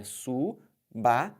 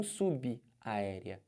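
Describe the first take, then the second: First: SUBAÉREA very slowly as su, ba, érea; linked syllables. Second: SUBAÉREA broken as su-bi, aérea; subaérea split into two words, subi aérea; wrong pronunciation. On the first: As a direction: pause after su, then BA as one beat in subaérea. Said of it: "É subaérea". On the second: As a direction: slowly put an I after the B in subaérea and pause. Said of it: "E não subaérea". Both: Shown as a demonstration.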